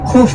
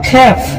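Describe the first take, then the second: First: The word is said with a 'u' vowel. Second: The word is said with an 'e' vowel. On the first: This is the usual common form. "কিন্তু সাধারণত খুফ বলা হয়" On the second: This is the regional dialect form. "আরবিতে আঞ্চলিক ভাষায় বলা হয় খেফ"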